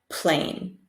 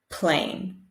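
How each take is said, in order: No difference in how they are said.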